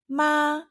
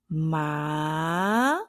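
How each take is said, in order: First: The pitch stays high and level. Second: The pitch rises from low to high. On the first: It means mother. "the first tone, which is explained as high and flat" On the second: It means numb or hemp, not mother. "the second tone has like this rising effect"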